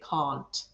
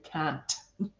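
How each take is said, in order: First: It is said in an English accent. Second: It is said in a Scottish accent. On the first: "That's an English one" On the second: "In a Scottish accent, we actually say can't"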